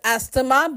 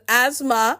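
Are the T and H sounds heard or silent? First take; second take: heard; silent. First: The T and H sounds are pronounced. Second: The T and H sounds are left out. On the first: The speaker calls it wrong. "not pronounced as asthma" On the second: The speaker calls it right. "T and H remain silent"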